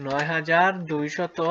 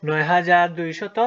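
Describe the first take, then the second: First: Slow, even "নয় হাজার দুইশত" with a rise on "হাজার"; drawn-out number read; slow dictation. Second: "নয় হাজার দুইশত" louder and slow, rising on "হাজার"; firm slow final reading; slow, louder recap. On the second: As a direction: announce "নয় হাজার দুইশত" loudly and slowly to the class. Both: Shown as a demonstration. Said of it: "এটির উচ্চারণ কি?".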